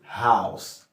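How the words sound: The word begins with an audible H sound. "The normal English is house"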